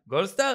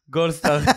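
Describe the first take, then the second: First: It is said in a surprised, excited tone. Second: It is said in a sad, gloomy tone. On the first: The man has just been caught off guard. "לגבר המופתע" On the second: The man is feeling down. "גם כשאתה עצוב"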